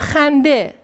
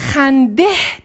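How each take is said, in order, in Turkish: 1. Kelime bir ünlüyle bitiyor, h sesi yok. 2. Kelime, duyulabilir bir h sesiyle bitiyor. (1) "hende e sesi veriyor" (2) "burada biz hendeh demiyoruz"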